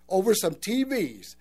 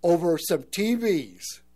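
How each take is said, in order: First: Said in the usual way. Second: Over some T Vs, slowed and weighted on each word; a heavy, slowed repeat of the quote; slow grim echo. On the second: Retold or imitated. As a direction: drag out over some T Vs like the man's lament. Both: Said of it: "in that guy's voice".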